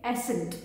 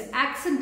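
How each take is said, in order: First: एसेंट with the k sound missing; incorrect pronunciation. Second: एक्सेंट with a clear k before the s; correct pronunciation. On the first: Teacher shows students' mistake, mispronouncing accent as एसेंट. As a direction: say "ASS-ent", dropping the k. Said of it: "ये incorrect pronunciation है". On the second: Teacher models the word for students, correctly pronouncing एक्सेंट as "ak-sent". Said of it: "जैसे एक्सेंट है". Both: Shown as a demonstration.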